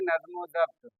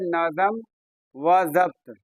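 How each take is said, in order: First: The words are run together into one. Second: The words are said separately, as written. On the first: "मिला करके पढ़ेंगे" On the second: "लिखा हुआ कैसे है?"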